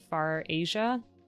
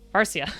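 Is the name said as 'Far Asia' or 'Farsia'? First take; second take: Far Asia; Farsia. First: It sounds like the two words far Asia. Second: It sounds like the single word Farsia. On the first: The speaker calls it wrong. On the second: The speaker calls it right.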